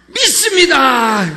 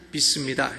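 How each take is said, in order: First: It is said firmly and with conviction. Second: It is said flatly and half-heartedly.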